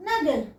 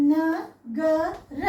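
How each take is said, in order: First: "నగర్" joined, ending on a bare r; "నగర్" as one Hindi word; half final letter. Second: "నగర" very slowly, each syllable drawn out; "నగర" as three full, separate sounds; letter by letter. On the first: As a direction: drop the last vowel of "నగర్". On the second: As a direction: spell out "నగర" with pauses, final a sounded. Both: Shown as a demonstration. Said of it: "చివరి అక్షరాల్ని హాఫే పలుకుతున్నాం".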